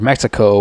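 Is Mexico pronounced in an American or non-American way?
American. The word is pronounced the usual American way.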